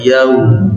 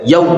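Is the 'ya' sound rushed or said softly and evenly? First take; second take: soft; rushed. First: The 'ya' part is soft, even and full. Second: The 'ya' part is rushed and too short. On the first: The speaker calls it right. "Kalau ini lembut aja" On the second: The speaker calls it wrong. "Tidak boleh yau. Berarti itu waw, ya-nya dicepatkan"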